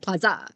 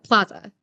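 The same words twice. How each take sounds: First: The stress is on the second syllable. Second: The stress is on the first syllable.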